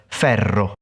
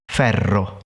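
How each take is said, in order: Both takes have the same delivery.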